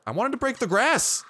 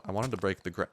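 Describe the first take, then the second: First: High-pitched cry of exasperation, peaking on grass; frustrated outburst. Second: Said in the usual way. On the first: Real, not acted. Gamer to the game over unbroken grass, frustrated outburst. Frustrated repeat of cut-off line.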